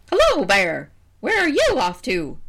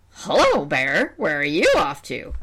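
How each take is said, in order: First: High, loud cawing bird voice; crow voice. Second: Vulture voice. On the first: Crow greets the bear, high and loud. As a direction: play a brash crow. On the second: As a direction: play a sly vulture. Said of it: "that's the vulture voice". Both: Acted.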